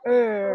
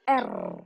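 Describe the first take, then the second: First: It is said as the English letter name. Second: It is said as the Indonesian letter name. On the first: "di dalam bahasa Inggris kita mengatakan er" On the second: "Di dalam bahasa Indonesia kita sebut yang seperti ini"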